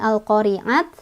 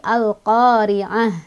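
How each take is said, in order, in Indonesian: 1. Kata ini berakhir dengan bunyi t. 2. Kata ini berakhir dengan bunyi h. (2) "kalau berhenti dia jadi ha"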